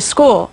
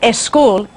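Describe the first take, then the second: First: The word starts directly with the s sound. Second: An extra e vowel comes before the s. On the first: The speaker calls it right. "en vez de" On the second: The speaker calls it wrong. "añaden una E antes de la S inglesa y dicen school"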